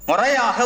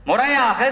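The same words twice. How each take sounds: No difference in how they are said.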